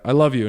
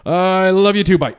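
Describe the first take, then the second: First: Said in the usual way. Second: High, loud imitation of a panicked dad; flustered dad. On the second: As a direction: blurt it like a dad fleeing the call. Dad rushes reply and hangs up.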